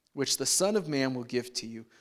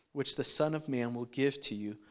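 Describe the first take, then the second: No difference in how they are said.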